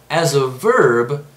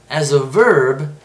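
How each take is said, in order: Both takes have the same delivery.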